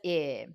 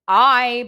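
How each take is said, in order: First: The vowel is short, as in sit. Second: The vowel sounds like the letter's name. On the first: "a short I says" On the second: "A long I says"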